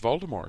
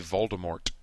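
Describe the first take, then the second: First: The name ends with no T sound. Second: The name ends with an audible T sound. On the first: This is how the author says it. The speaker calls it right. "She doesn't pronounce the T" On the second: This is how the films say it. The speaker calls it wrong. "they say Voldemort with a T on the end"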